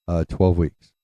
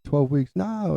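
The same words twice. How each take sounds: First: Imitating an unhurried dad at his usual pitch; hesitate, then give it evenly and deliberately. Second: Flipping out. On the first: Dad finally giving mom the news, deliberate. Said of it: "My dad was so deliberate". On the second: Retold or imitated. Mom reacting to the twelve weeks news, flipping out. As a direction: echo it in disbelief, pitch leaping up. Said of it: "flipping out".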